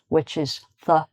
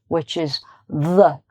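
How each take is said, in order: First: The th sound is light, with no voicing. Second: The th sound is heavy, with strong voicing. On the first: "There's a lighter sound" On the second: "there's a heavier sound, where you use more of your vocal cords"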